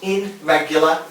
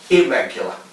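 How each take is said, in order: First: The prefix is said as a full 'in' sound. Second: The prefix is said as an 'ir' sound. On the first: The speaker calls it wrong. "Not irregular" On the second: The speaker calls it right. "but irregular"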